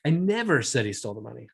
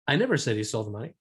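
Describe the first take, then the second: First: Never punched, held longer; stress on NEVER. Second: I stressed, rest even. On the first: Teacher showing how stress shifts meaning, never stressed. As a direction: hit the word never hard. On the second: Teacher to class, showing stress on I. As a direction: lean on the first word I. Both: Shown as a demonstration. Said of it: "based on how I accentuated that".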